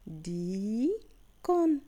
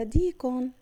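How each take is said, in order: First: "ديكون" very slowly, long dii, pause, kun; slow two-part sounding-out of "ديكون"; syllable by syllable. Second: Said in the usual way. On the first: Shown as a demonstration. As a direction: stretch the first syllable of "ديكون", then add the last. Teacher splits word into syllables.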